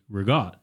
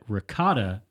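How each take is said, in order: First: Final vowel dropped and the k becomes g. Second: Full word, final vowel kept, with a k sound.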